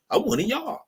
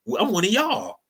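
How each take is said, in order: First: High mock voice claiming belonging; mocking squeak. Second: High mock voice claiming belonging; mocking whine. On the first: Mocking immigrants who join whiteness, in a high squeak. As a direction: squeak it out, eager to fit in. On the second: Mocking Irish immigrants joining whiteness in a high sly voice. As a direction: pitch it up, sly and eager. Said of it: "until y'all said".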